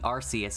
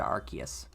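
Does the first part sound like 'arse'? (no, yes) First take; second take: yes; no. First: The first part sounds like the word 'arse'. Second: The first part does not sound like 'arse'. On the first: This is the original pronunciation. The speaker calls it wrong. "it used to be Arceus, and they're like, oh wow, Arce is a bad word" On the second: This is the changed pronunciation. The speaker calls it right. "And then they changed it to Arceus"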